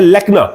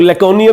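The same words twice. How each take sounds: First: Said in the usual way. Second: "laconia" with an extra syllable at the end; alternative pronunciation. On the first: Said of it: "लेकिन एक simple word है lacuna". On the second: Shown as a demonstration. Teacher showing students another reading, variant pronunciation. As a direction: say it as "laconia", the variant some read. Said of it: "जिसे कुछ लोग laconia भी पढ़ते हैं".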